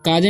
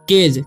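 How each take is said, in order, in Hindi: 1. स्वर 'ah' है, अंत में एक और स्वर जुड़ता है। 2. स्वर 'ay' है, अंत में 'j' की आवाज़ आती है। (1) "काजे नहीं पढ़ना है" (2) "तो पढ़ेंगे हम केज"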